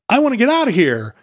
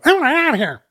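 First: It is said in a normal speaking voice. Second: It is said with shifted pitch and tempo.

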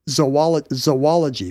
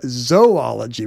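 First: The first o is reduced to a schwa. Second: The first o is a full long O. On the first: "I was saying zoology with a schwa" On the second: "instead of zoology with a long O"

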